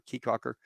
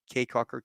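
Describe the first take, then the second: First: "Caye" said like "key" in Caye Caulker; alternative pronunciation. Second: "Caye" said like "kay" in Caye Caulker; trying a pronunciation. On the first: Guest checking a place name with Desi, "Caye" as "key". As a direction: say Caye Caulker with Caye rhyming with "see". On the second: Guest checking a place name with Desi, "Caye" as "kay". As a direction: say Caye Caulker with Caye rhyming with "day". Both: Shown as a demonstration. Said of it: "I say that right, Desi?".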